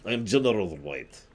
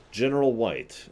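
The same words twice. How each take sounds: First: Lightly put-on Russian general, stressing General; mock Russian accent. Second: Said in the usual way. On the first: Russian Bob-omb general introducing himself, light mock Russian accent. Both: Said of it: "Sorry, he's Russian".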